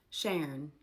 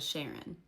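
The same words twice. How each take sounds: First: "Sharon" said as "Shern", two syllables squeezed to one; "Sharon" clipped to a single syllable, "Shern"; Appalachian pronunciation. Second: Said in the usual way. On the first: Shown as a demonstration. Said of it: "instead of Sharon". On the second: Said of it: "instead of".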